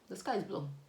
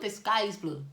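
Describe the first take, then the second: First: Said in a calm, matter-of-fact tone. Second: Said in an exaggerated, dramatic tone. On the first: It is presented as an obvious fact. The speaker calls it right. "That's the tone you need to tell them" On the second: It is presented as surprising news. The speaker calls it wrong. "You don't go exactly, oh, ... Nobody does that"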